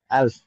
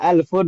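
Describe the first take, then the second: First: The word ends without its final vowel ending. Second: The word ends with the full '-un' ending. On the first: "dalam percakapan memang nggak dibaca harokat terakhirnya kan dengan ya. Alf gitu" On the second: "alfun gitu nggak masalah"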